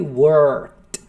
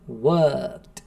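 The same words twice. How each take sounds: First: The R sound is strong and drawn out. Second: The R sound is light and short.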